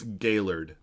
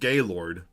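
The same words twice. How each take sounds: First: The name is said in the local way. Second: The name is said in a nonlocal way. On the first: The speaker calls it right. "It's Gaylord" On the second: The speaker calls it wrong. "This is not Gaylord"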